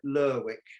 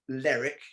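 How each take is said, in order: First: The middle 'w' is clearly sounded. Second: The middle 'w' is silent, as in Berwick. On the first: The speaker calls it right. "You pronounce it Lerwick" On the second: The speaker calls it wrong. "You don't pronounce it Lerwick"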